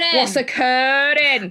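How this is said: It is said in an imitated Welsh accent.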